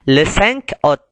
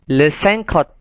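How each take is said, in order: First: Cinq and août are said as separate words. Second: Cinq runs straight into août without a break.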